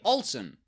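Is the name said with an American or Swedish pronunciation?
American. The name is said with an American pronunciation. The speaker calls it right. "You read Olsen"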